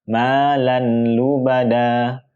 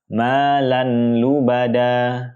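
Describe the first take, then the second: No difference in how they are said.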